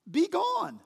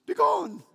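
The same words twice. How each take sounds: First: High-pitched regal order; lofty royal command, pitched well up; kingly command. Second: High, loud British kingly command; mock-British royal dismissal, pitched high; British accent. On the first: Acted. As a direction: dismiss him like a king. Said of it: "That's kingly speech, isn't it?". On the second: Shown as a demonstration. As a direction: put on a regal British accent. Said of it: "say it with a British accent".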